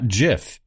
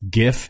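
First: The word begins with a soft j sound. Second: The word begins with a hard g sound. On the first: The speaker calls it wrong. "not JIF" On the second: The speaker calls it right. "It's GIF"

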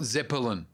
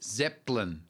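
First: An extra vowel sound between the P and L. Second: No vowel sound between the P and L. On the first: The speaker calls it wrong. "not Zeppelin. There's no letter between the P and the L" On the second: The speaker calls it right. "No, Led Zeppelin"

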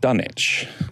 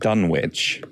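First: It is said the English way, silent w. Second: It is said the American way, with w.

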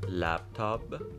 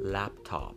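First: The word is said with b sounds. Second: The word is said with p sounds. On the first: The speaker calls it wrong. "لپتاپ غلط" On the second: The speaker calls it right. "لپتاپ صحیح"

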